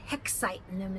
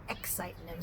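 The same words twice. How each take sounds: First: Hexitin' him with an added h at the front; Cockney Hexitin' with a stray h. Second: Excitin' him with no h at the start. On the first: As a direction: say Hexitin' with a breathy h sound first. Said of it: "And he says". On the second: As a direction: say excitin' plainly, dropping the g. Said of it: "instead of". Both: Shown as a demonstration.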